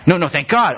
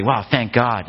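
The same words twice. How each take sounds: First: "thank God" said as an order to thank God; mock literal command. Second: Casual relieved "Wow, thank God"; everyday relief, not a prayer; offhand exclamation. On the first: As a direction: insist like a literal instruction. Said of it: "No, we don't do that". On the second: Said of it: "like, yeah". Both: Shown as a demonstration.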